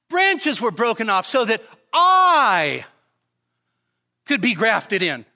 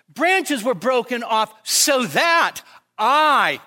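First: The stress is on the word I. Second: The stress is on the words so that.

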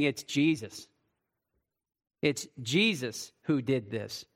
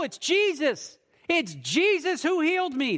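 First: It is said as an accusing report. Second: It is said with grateful praise.

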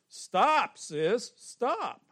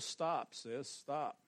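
First: It is said with strong, forceful emphasis. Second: It is said plainly, without extra force.

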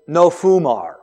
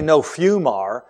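First: The first syllable sounds like foo. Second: The first syllable sounds like fyoo. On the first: The speaker calls it right. "It also says no fumar" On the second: The speaker calls it wrong. "It doesn't say no fumar"

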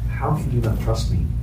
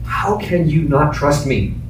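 First: The question sounds soft and gentle. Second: The question sounds perturbed and sharp. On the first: "Probably it was softer than what I just did" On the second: "Maybe there was a perturbed tone of voice"

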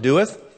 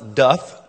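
First: The word is said as two syllables. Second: The word is said as one syllable. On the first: This is how the speaker has always said it. "I've always pronounced it doeth" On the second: This is how some other people say it. "some people pronounce doth"

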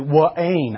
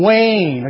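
First: The name is drawn out into two syllables. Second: The name is said as one short syllable. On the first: The speaker calls it wrong. "he would say" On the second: The speaker calls it right. "It's only one syllable"

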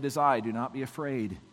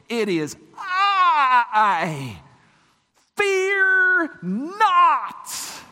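First: It is said calmly and softly. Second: It is said forcefully and strongly.

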